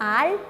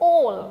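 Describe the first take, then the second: First: The vowel is an open, unrounded 'aa'. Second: The vowel is a rounded 'aw'. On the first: The speaker calls it wrong. "A L L is not ആൾ" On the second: The speaker calls it right. "it's all"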